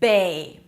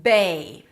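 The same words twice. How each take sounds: Both takes have the same delivery.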